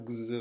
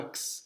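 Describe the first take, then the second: First: X voiced as "gz". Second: X pronounced "ks", voiceless. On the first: (x prononcé « gz », sonore) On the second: (x prononcé « ks », sourd) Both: Shown as a demonstration. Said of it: "ça se prononce soit".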